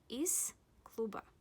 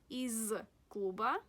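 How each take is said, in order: First: The word 'из' ends with a voiceless s sound. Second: The word 'из' ends with a voiced z sound. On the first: The speaker calls it right. "You should say из клуба" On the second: The speaker calls it wrong. "Not из клуба"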